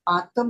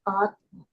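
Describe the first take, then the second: First: A vowel sits between the t and m. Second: The t joins straight onto the m. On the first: The speaker calls it wrong. "आत्म नहीं पढ़ेंगे" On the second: The speaker calls it right. "आधा का है तो इसको हम पढ़ेंगे आत्म"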